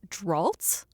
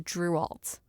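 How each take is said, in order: First: The name sounds like 'Dralt', one syllable. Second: The name sounds like 'Drualt', two syllables. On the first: This is how it was misread earlier. The speaker calls it wrong. "in my mind it was always Dralt" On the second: This is how it is actually written. The speaker calls it right. "oh, that's Drualt"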